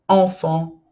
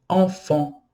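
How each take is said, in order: Both takes have the same delivery.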